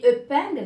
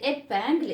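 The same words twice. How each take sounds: First: "épingle" with a rounded eu sound at the start, like eupingle; wrong vowel. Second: "épingle" with a clear open é at the start; correct vowel. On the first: Teacher asks the class about a mistaken "épingle" with a rounded first vowel. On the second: Teacher gives the class the correct "épingle" with a clear é. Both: Shown as a demonstration. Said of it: "Non, c'est épingle".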